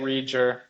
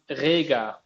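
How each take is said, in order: First: The name is said with an English pronunciation. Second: The name is said with a German pronunciation. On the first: "we say it Rieger" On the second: "They say it more like Rega"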